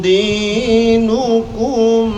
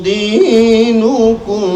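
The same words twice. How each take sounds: The two takes are said the same way.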